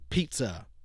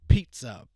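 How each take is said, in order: First: The P makes a soft, muffled burst of air. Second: The P makes a loud popping burst of air. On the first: "let's put this back on" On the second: "I'm going to take it down and we'll see how this handles plosives"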